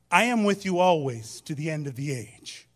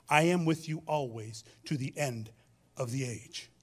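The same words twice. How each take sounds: First: Louder, each word of "I am with you always" given weight; emphatic proclamation. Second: Said in the usual way. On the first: Real, not acted. Preacher proclaims Jesus' promise to the congregation, louder and emphatic. Reads scripture, then repeats it.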